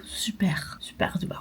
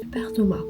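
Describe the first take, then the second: First: Soft unvoiced whisper; whispering over a crib. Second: Said in the usual way. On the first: Real, not acted. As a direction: whisper so he won't wake. Whispers near sleeping Thomas. (chuchoté tout doucement) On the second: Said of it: "si tu vois cette vidéo".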